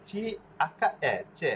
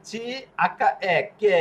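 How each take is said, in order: First: চি, আক্কা, এ spelled out, then চে with a ch; soft CH sound. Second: C, আক্কা, এ spelled out, then কে with a hard k; hard K sound. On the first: Teacher shows what it would become, spelled-out demo with ch চে. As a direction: land on চে as "cheh" instead of a k. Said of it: "চি, এ, চে হয়ে যেত". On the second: Teacher explains the silent letter, spelled-out demo with hard-k কে. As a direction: land on কে as "keh", drawn out. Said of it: "কোয়ার উচ্চারণ করার জন্য". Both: Shown as a demonstration.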